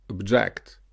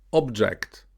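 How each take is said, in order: First: ObJECT, stressed on the second syllable. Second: OBject, stressed on the first syllable. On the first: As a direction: say object as a verb, ob-JECT. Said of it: "verb will be usually stressed on the second". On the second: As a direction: say object as a noun, OB-ject. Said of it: "noun will be usually stressed on the first". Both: Shown as a demonstration.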